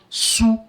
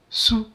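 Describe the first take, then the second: First: The syllable is said with its African-name sound. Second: The syllable is said with its French sound. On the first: "in African name, it's gonna sound sou" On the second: "this one is French"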